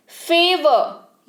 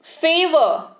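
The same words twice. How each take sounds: First: favour stretched out very slowly, syllable by syllable; slow classroom repetition; slow demo. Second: Said in the usual way. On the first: Shown as a demonstration. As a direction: draw out favour for learners to copy. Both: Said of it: "यानी कि एहसान".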